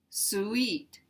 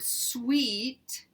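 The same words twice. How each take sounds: First: The word is said as two syllables. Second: The word is said as one syllable. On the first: The speaker calls it wrong. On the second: The speaker calls it right.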